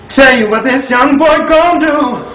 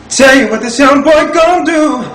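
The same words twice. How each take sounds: Both takes have the same delivery.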